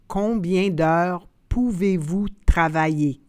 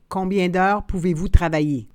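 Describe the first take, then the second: First: The phrase is said slowly and carefully. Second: The phrase is said at natural conversational speed. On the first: "then slowly said in French" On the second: "and then in communicational Canadian French"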